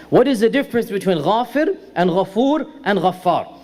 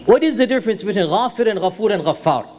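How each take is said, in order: First: Spaced out, each name set apart; measured repeat. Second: Quick question. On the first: Lecturer repeating the question for the class, measured and deliberate. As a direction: repeat the question deliberately, separating the three names. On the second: Lecturer first posing the question to the class, quickly. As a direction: rattle the question off briskly. Question posed, then repeated slowly. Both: Real, not acted.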